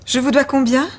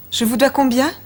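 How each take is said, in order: Both takes have the same delivery.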